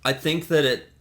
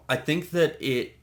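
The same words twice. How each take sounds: The two takes are said the same way.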